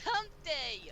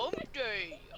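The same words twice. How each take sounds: First: It is said in an ordinary speaking voice. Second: It is said in a put-on deep voice. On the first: The speaker calls it right. "Say it normally" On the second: The speaker calls it wrong. "you're saying it in a deep voice"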